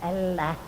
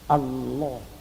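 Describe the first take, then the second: First: The L sound is light and thin. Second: The L sound is heavy and thick. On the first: The speaker calls it wrong. "Tidak boleh dibaca" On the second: The speaker calls it right. "Ini harus dibaca tebal"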